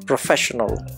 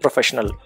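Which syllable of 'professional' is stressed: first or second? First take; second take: second; first. First: The stress is on the second syllable. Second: The stress is on the first syllable. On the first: The speaker calls it right. "The stress is on the second syllable" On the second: The speaker calls it wrong. "Here the stress was on the first syllable"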